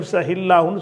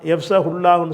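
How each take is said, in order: First: The linking vowel before Allah is i. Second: The linking vowel before Allah is u. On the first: The speaker calls it right. "சொல்லிடணும்" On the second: The speaker calls it wrong. "சொல்லாமல்"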